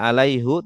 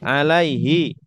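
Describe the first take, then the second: First: The word ends with the vowel 'u'. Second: The word ends with the vowel 'i'. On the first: The speaker calls it wrong. "Tidak alaihu" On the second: The speaker calls it right. "ada ya mati juga sama dibaca hi"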